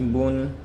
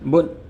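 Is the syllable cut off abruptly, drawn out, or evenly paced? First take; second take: even; abrupt. First: The syllable is said smoothly at an even pace. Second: The syllable is cut off with a sudden jerk. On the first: The speaker calls it right. "हमें पढ़ना ऐसे है" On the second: The speaker calls it wrong. "झटके से"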